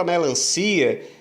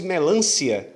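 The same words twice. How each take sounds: First: "melancia" stressed on CI, me-lan-CI-a; "melancia" with a strong ci, then a separate a; separated vowels. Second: "melancia" stressed on LAN, me-LÂN-cia; vowels run together. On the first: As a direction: keep i and a apart in "melancia". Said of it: "eu separo o I e o A". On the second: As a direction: merge the final ia of "melancia" into one syllable. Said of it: "Se eu não separasse e dissesse tudo junto". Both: Shown as a demonstration.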